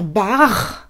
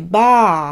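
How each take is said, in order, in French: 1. C'est prononcé à la française. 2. C'est prononcé à la japonaise, avec un a long. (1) "en français, on va dire bar" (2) "en japonais, bar ... ça devient donc un A allongé"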